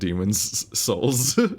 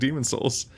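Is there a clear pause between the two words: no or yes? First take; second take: yes; no. First: A clear pause separates the two words. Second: The two words run together without pause. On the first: The speaker calls it right. "You have to have a distinct pause in order to actually say it" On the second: The speaker calls it wrong. "Otherwise, it just sounds like it's like you're saying demon souls"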